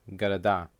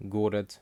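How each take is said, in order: First: "города" stressed on the final а, ga-ra-DA; stress on last syllable. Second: "город" stressed on the first о, GO-rat; full first vowel in "город", weak second; stress on first syllable. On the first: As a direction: reduce both о vowels, land on the end of "города". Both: Shown as a demonstration. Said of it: "the stress will change with case".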